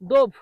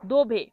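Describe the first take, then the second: First: The word ends with a 'v' consonant. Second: The word ends with an 'e' vowel. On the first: The speaker calls it wrong. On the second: The speaker calls it right.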